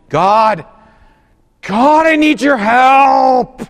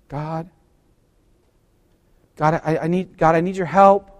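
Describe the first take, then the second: First: It is said with intense, emotional passion. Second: It is said at a calm, ordinary volume.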